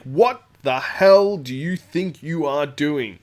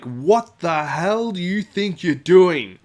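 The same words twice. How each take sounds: First: Slow, loud, measured fury; stern angry demand. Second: Slow, loud, higher angry yell. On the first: Ian storming over to confront Goliath, stern. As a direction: bear down on him with each word. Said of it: "and he's like". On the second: Ian yelling across the club at the bully. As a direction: bellow it across the room. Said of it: "he's actually yelling over the top of everyone". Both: Retold or imitated.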